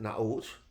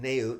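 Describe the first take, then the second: First: The name is said the Israeli way. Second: The name is said the American way. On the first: This is how people in Israel say it. "They pronounce it Naot" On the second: This is how people in the US say it. "we pronounce it Naot here"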